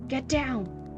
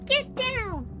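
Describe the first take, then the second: First: It is said in a normal voice. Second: It is said in a cutesy voice.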